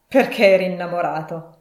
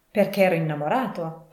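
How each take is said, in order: First: Loud, scornful echo; grunted scorn. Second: Said in the usual way. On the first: A narrator's reading. Scrooge mocks his nephew for marrying for love, grunting loudly. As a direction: throw it back as a gruff, incredulous question. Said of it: "grugnì Scrooge".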